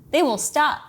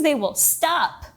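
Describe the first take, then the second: First: Playful warning, slightly higher; mock threat. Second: Mock threat. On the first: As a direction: tease them with a threat. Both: Real, not acted.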